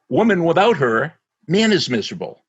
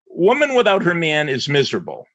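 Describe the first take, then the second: First: Pauses make the man the miserable one. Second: Pauses make the woman the miserable one.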